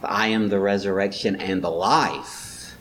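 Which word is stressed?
life. The stress is on the word life. The point is the life; the resurrection is only the first step. "but he really wants to stress the life"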